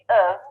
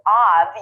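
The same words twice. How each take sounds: First: The word has a short, neutral reduced vowel. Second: The word has a full, open vowel. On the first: The speaker calls it right. "pronounce this very neutral sound" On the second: The speaker calls it wrong. "instead of pronouncing the full vowel"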